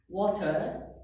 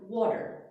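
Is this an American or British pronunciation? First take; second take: British; American. First: The word has no r sound. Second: The word has an r sound. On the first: "the British... especially when they say the R" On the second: "we say water"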